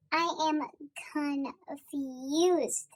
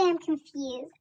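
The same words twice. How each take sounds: First: "confused" stretched out syllable by syllable; slow right down and draw out "confused"; emphatically confused. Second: Said in the usual way. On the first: Shown as a demonstration. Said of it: "when I say I'm confused". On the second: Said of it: "I'm not just like".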